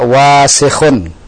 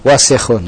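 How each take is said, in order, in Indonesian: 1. Vokal pertama dipanjangkan. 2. Vokal pertama tetap dibaca pendek. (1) "jangan dipanjangkan wawunya. Jadi jangan antum baca wasikhun" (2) "Yang betul adalah wasikhun"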